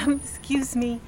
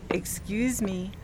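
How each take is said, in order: First: Embarrassed laughing excuse me; laughing apology. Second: Embarrassed slow excuse me; slow, soft apology. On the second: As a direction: excuse me drawn out slowly and softer. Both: Retold or imitated. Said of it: "and I keep saying".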